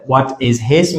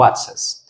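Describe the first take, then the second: First: Said in the usual way. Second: "What's his" shrunk to "whatsiz"; connected speech. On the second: Shown as a demonstration. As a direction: drop the H of his.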